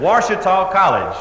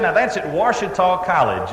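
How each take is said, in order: First: Slow, pointed, a bit irritated; a little irritated. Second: Said in the usual way. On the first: Retold or imitated. Caller repeating the college name to the operator, mildly irritated. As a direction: spell it out with mild impatience. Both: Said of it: "A little bit irritated".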